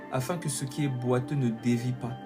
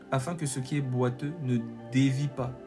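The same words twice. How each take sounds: No difference in how they are said.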